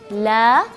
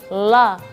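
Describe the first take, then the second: First: The L sound is thin and light. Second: The L sound is thick and heavy. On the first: "lamnya tipis" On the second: "itu lamnya tebal"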